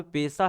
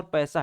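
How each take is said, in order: First: 'पैसा' mispronounced with a close e, as 'pesa'; wrong vowel. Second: 'पैसा' with an open ai vowel, as 'paisa'; correct vowel. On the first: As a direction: say पैसा wrongly as 'पेसा'. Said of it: "ए की मात्रा नहीं आती है". (पैसा में ऐ की जगह ए बोलें) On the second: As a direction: say पैसा correctly, opening the first vowel to 'ai'. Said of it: "ऐ की मात्रा आती है". (पैसा में साफ़ ऐ की मात्रा बोलें) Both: Shown as a demonstration.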